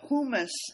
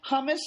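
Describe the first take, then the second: First: It is said with a British English pronunciation. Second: It is said with an American English pronunciation. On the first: "hummus is British English" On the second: "hummus is American English"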